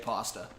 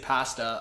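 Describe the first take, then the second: First: It is said with an American pronunciation. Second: It is said with a Canadian pronunciation. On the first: "a lot of Americans say pasta" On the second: "Canadians say pasta"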